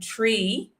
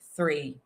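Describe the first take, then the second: First: The word begins with a plain t sound. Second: The word begins with a th sound. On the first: "in Ireland, you will hear people saying tree instead of three" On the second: "I say three because i'm an English teacher"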